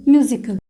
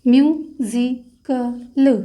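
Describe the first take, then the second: First: Said in the usual way. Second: musical stretched very slowly, syllable by syllable; drawn-out word. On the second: Shown as a demonstration. Teacher tracing shorthand stroke for students, very slow. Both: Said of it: "तो stroke create होगा".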